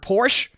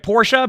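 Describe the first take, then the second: First: It uses the American pronunciation of the name. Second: It uses the non-American pronunciation of the name. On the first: This is how it is commonly heard in America. "in America we always heard Porsche" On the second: This is supposedly the correct way to say it. "I'm pronouncing it Porsche because that's apparently how you pronounce it"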